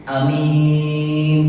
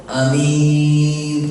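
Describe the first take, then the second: Both takes have the same delivery.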